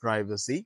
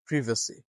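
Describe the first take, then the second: First: Privacy with "pry", "PRY-vuh-see"; American privacy. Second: Privacy with a short i, "PRIV-uh-see"; British privacy. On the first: Teacher contrasts the American privacy with long "pry". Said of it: "But if you follow American accent". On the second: Teacher gives students the British privacy, short "priv". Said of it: "then in British accent". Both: Shown as a demonstration.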